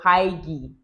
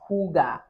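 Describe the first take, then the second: First: The first vowel sounds like 'eye'. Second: The first vowel sounds like 'oo'. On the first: The speaker calls it wrong. "I would have pronounced it as hike or Haigi" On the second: The speaker calls it right. "it's pronounced Huga"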